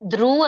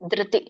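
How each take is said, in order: First: The vowel is rounded like u, lips pushed forward. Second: The vowel is unrounded ri, lips spread wide. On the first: The speaker calls it wrong. "ಧ್ರು ಅಂತ ಹೇಳ್ಬೇಡಿ" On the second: The speaker calls it right. "ಬಾಯಿ ನಮ್ ತುಟಿ ಅಗಲ ಆಗ್ಬೇಕು"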